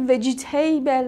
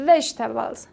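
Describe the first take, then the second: First: وجیتیبل with every vowel spelled out, vej-i-ti-bel; mock the learners' over-pronounced وجیتیبل; wrong pronunciation. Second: وجتبلز said as three clipped syllables, vej-teb-lz; correct pronunciation. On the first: Teacher mimics learners' mistaken وجیتیبل, over-pronounced. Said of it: "تلفظی عجیب غریب نکنید". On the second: Teacher models correct وجتبلز for learners, clipped. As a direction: model the right وجتبلز, compact and clear. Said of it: "پس درست بگید". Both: Shown as a demonstration.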